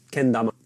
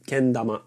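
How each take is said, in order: Both takes have the same delivery.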